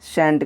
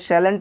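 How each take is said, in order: First: It drops the l sound into one syllable. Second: It keeps the l sound and two syllables. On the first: The speaker calls it right. "कहिएगा" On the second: The speaker calls it wrong. "मत कहिएगा"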